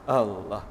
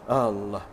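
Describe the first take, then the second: No difference in how they are said.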